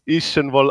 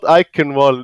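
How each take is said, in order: First: The name is pronounced in a German-sounding way. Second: The name is pronounced in an English-sounding way. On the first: The speaker calls it right. "If there's some Germans watching, they're probably like" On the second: The speaker calls it wrong. "we are pronouncing it incorrectly"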